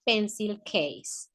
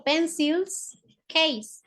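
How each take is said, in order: First: Said in the usual way. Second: PENCILS and CASE slowly, with a gap between; slow repetition. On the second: Shown as a demonstration. Teacher repeating the English term for pupils, slow repetition. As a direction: separate "Pencils" from "case", drawing each out.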